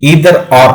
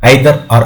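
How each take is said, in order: First: Either starts with an 'ee' vowel sound. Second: Either starts with an 'eye' vowel sound. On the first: "American ప్రొనౌన్సియేషన్లో" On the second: "British ప్రొనౌన్సియేషన్లో"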